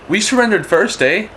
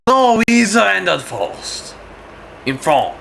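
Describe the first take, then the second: First: High-pitched Canadian claim ending on "eh"; improvised Canadian. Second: High, drawn-out mock French protest; French accent. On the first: Acted. Canadians racing the French to surrender, improvised Canadian voice. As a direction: pipe up as a mock Canadian. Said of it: "Canadians, they're gonna go". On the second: The French arguing they surrendered first, French accent. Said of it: "And the French go".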